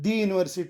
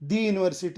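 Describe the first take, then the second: First: 'The' is said with a long 'thee' vowel. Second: The same.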